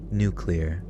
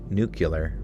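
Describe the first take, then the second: First: The word is said carefully, each syllable enunciated. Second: The word is said carefully, each syllable enunciated.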